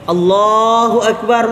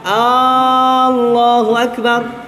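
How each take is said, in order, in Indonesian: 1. A di awal pendek; bunyi lah yang dipanjangkan. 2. Bunyi A di awal dipanjangkan. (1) "Allahnya yang dipanjangin" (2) "nggak boleh"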